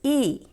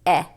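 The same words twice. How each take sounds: First: The vowel sounds like the letter's name. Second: The vowel is a short, clipped sound. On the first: "The long sound for E is E" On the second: "E's short sound is E, like egg"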